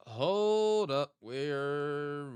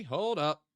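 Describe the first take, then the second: First: Higher, louder sudden "Hold up" with a long "hold"; surprised. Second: Said in the usual way. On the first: Real, not acted. Streamer suddenly recognizing the map spot, surprised. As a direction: stop everything, you just spotted something. Realizing the location in game.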